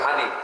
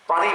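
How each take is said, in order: First: The p becomes an h, Noakhali style. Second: The word starts with a standard p sound.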